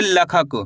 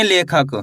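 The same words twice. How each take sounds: First: लखक with a short "la" at the start; without e-matra. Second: लेखक with a long "ले" at the start; with e-matra. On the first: Teacher shows the word minus its matra, short first vowel in लखक. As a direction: say लखक, opening on "luh", no "ay" sound. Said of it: "अगर ला में ए की मात्रा नहीं होती, तो कैसे पढ़ते हैं". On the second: Teacher shows learners how the e-matra reads, clear e vowel in लेखक. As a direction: say लेखक, opening on "lay". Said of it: "अगर ला में ए की मात्रा नहीं होती". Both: Shown as a demonstration.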